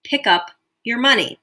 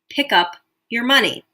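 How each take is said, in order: First: It is said calmly, with little urgency. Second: It is said calmly, with little urgency.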